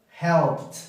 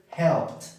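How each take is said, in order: No difference in how they are said.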